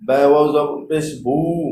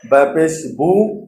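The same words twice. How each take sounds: First: "বু" held long; stretched madd. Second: "বু" short, unstretched; short harakat. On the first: Teacher drilling madd with stretch, long "বু". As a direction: draw out the vowel of "বু". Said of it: "মদের হরফ টান দিয়ে উচ্চারণ". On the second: Teacher drilling harakat without stretch, short "বু". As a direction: cut the vowel of "বু" short. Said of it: "টান ছাড়া উচ্চারণ করতে হবে". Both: Shown as a demonstration.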